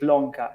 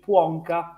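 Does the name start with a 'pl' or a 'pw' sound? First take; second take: pl; pw. First: The second sound is a clear L. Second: The second sound is a w-like glide. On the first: The speaker calls it wrong. "I'm using the Italian pronunciation from now on" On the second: The speaker calls it right. "the correct pronunciation should, should be Puonka"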